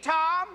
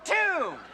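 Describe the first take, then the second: First: The vowel sounds like the one in bomb. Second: The vowel sounds like the one in boom. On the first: The speaker calls it wrong. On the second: The speaker calls it right. "If T O M B is tomb, that's boom"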